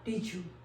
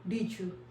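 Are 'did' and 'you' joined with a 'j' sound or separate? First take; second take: joined j; joined j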